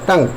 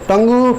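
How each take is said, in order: First: The word ends on the ng sound. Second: An extra oo vowel ends the word. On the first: The speaker calls it right. "बस टंग" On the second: The speaker calls it wrong. "टंगू नहीं"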